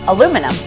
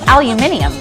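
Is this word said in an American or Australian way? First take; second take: American; Australian. First: It is said with four syllables, American style. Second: It is said with five syllables, Australian style. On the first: "what do you guys call this?" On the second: "It's aluminium"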